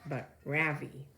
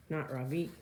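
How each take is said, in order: First: 'Ravi' with a flat American RAV-ee, stressed first syllable, falling, slowed; Americanized mispronunciation. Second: 'Ravi' with a soft open Ra, rising at the end; 'Ravi' said the proper way, soft Ra and strong V; correct Indian pronunciation. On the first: Reader showing the class how Americans mangle Ravi. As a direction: say 'Ravi' the way Americans get it wrong. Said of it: "people call me Ravi with a stress on the first syllable". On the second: Reader showing the class the right way to say Ravi. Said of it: "pronounced Ravi with a soft Ra".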